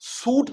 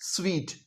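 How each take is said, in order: First: It is pronounced like the word suit. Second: It is pronounced like the word sweet. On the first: The speaker calls it wrong. "सूट नहीं कहना" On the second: The speaker calls it right. "क्या कहना है, स्वीट"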